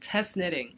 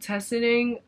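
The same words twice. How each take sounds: First: Each word is pronounced clearly and separately. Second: The words run together and sound unclear. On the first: The speaker calls it right. "but test knitting" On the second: The speaker calls it wrong. "It didn't sound like I said test knitting"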